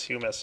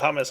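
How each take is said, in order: First: It sounds like humus, the soil word. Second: It sounds like the chickpea dip hummus. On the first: The speaker calls it right. "it's humus" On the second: The speaker calls it wrong. "I always never pronounced it right. I always said hummus"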